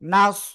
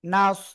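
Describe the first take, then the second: First: The word is said with a thick, heavy sound. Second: The word is said with a thick, heavy sound.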